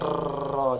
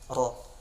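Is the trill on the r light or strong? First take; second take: strong; light. First: The r has a strong, exaggerated trill. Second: The r has a light, brief trill. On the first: The speaker calls it wrong. "jangan seperti itu" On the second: The speaker calls it right. "Sekedarnya saja atau secukupnya saja"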